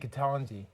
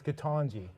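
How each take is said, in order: First: The middle vowel is said the Canadian way. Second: The middle vowel is said the American way. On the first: "in Canada we would say Ketanji, like taco" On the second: "I'm being told by a medical doctor it's Ketanji. Which they say phonetically"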